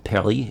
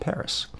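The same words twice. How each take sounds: First: It is said with a French pronunciation. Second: It is said with an English pronunciation.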